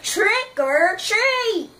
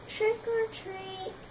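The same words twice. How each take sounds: First: It is said a little louder. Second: It is said very softly.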